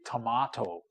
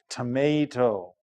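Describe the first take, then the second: First: The word has a non-American pronunciation. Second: The word has an American pronunciation. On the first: "some people say" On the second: "Americans say"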